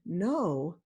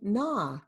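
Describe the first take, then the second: First: The vowel is a long o sound. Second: The vowel is a short ah sound. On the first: The speaker calls it wrong. "they may want to say" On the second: The speaker calls it right. "maintain the short vowel sound"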